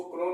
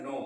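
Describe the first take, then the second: First: क्नो with the K sounded; mispronounced क्नो, silent K spoken aloud; wrong pronunciation. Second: नो with a silent K; नो, no K sound before the N; right pronunciation. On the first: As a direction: say क्नो, a hard K run into the N. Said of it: "क्नो नहीं पढ़ा जाता है". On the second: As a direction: say नो, starting straight on the N. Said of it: "इसको पढ़ा जाता है नो". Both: Shown as a demonstration.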